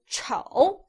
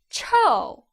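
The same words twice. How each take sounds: First: The pitch dips low, then rises. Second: The pitch falls sharply from high. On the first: It means ugly. "with the third tone" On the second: It means stinky. "fourth tone"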